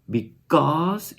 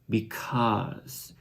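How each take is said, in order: First: The k has no h sound after it. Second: The k is followed by an h sound. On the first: The speaker calls it wrong. "It's not because" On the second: The speaker calls it right. "after the k sound, you hear a h sound"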